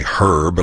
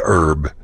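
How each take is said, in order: First: "herb" with a sounded H; British herb. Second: "herb" with a silent H, "erb"; Texan herb. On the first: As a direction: breathe the H in "herb". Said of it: "like the British do". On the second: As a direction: drop the H in "herb". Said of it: "We say herb". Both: Shown as a demonstration.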